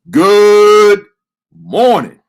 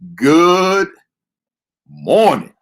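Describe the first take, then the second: First: It is said with strong, high energy. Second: It is said with weak, low energy. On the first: The speaker calls it right. "That's better" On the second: The speaker calls it wrong. "Man, that sounded weak"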